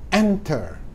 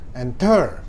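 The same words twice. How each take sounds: First: The stress is on the first syllable. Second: The stress is on the second syllable. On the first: The speaker calls it right. "suku kata pertama yang ditekan" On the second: The speaker calls it wrong. "bukan enter, bukan"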